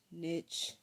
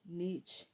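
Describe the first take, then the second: First: "niche" with a short i, like "nitch"; short i vowel in "niche"; alternate pronunciation. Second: "niche" with a long ee, like "neech"; long ee vowel in "niche"; alternate pronunciation. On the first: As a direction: say "niche" to rhyme with "pitch". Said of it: "I say niche". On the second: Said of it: "a lot of people say niche". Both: Shown as a demonstration.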